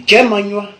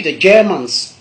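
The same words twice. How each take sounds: First: "Germanois" as gué-ma-nywa; Godié pronunciation. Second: "Germans" in two syllables, ending ns; English pronunciation. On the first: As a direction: end "Germanois" on an open nywa. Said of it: "En godié". (« Germanois » à la godié, finale en gnwa) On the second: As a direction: close "Germans" on the consonants. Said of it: "en anglais, pour parler des Allemands". (« Germans » à l'anglaise, finale en ns) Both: Shown as a demonstration.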